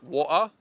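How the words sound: The T in the middle is dropped. "unlike British, they would say like water"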